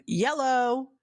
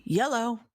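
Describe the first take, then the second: First: Higher, drawn-out teasing phone greeting; mocking dad. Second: Lightly imitated dad's phone greeting, lilting up; dad answering phone. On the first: Kid picking up the phone to razz dad, mocking. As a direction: exaggerate dad's phone hello to razz him. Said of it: "to make fun of him". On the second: Daughter recalls dad answering the phone, light imitation. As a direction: imitate a father picking up, pitch a little higher. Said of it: "My dad used to answer the phone".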